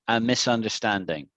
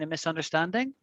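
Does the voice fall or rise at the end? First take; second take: fall; rise. First: The voice falls at the end. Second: The voice rises at the end. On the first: It is a statement. "my voice went down. It went right down" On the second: It is a question. "My voice went up"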